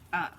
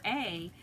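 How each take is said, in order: First: The vowel is a short "uh" sound. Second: The vowel is a long "ay" sound. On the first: The speaker calls it right. "it borrows the short U sound of uh" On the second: The speaker calls it wrong. "you want to say a or a"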